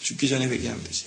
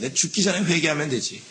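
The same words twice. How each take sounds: First: Repeated much softer, almost to himself; softer echo. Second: Casual shrug of a man delaying repentance; complacent sinner. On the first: The same delaying person repeating it, quiet and offhand. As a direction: let it fall away quietly. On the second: Person who puts off repentance, casually dismissive. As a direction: toss it off lightly, no urgency. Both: Retold or imitated. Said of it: "이 사람이 있어요".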